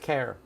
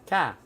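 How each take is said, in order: First: It is said in a Chicago accent. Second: It is said in a Boston accent. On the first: "Chicago is care" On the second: "Boston is ca"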